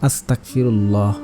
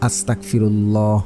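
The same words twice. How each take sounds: No difference in how they are said.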